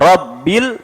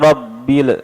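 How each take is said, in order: First: The final L is held still without release. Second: The final L is released with a bounce. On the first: The speaker calls it right. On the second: The speaker calls it wrong. "jangan dipantulkan. Banyak sering kita dengar"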